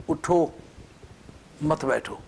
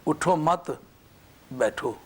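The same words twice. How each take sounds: First: اٹھو on its own, a long pause, then مت بیٹھو as one phrase; pause after اٹھو. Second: اٹھو مت as one phrase, a pause, then بیٹھو alone; pause after مت. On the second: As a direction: run اٹھو مت together, then stop before بیٹھو. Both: Shown as a demonstration. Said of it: "اب مت پر وقف کرو".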